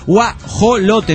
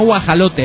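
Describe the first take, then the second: First: The vowel after 'guaj' is an 'o' sound. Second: The vowel after 'guaj' is an 'a' sound. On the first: The speaker calls it right. "es guajolote" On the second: The speaker calls it wrong. "no guajalote"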